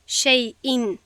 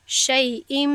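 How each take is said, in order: First: Said in the usual way. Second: «شیء» ending in a nasal m; iqlab demo. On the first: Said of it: "به جای". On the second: Shown as a demonstration. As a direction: hum the tanwin as m. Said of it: "باید بگویم".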